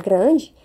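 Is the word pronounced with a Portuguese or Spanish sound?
Portuguese. It is pronounced with Portuguese sounds. The speaker calls it wrong. "em vez de falar grande"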